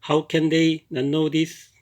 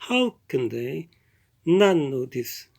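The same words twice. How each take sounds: First: It is said with a flat Korean-style rhythm. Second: It is said with a lively native-like rhythm.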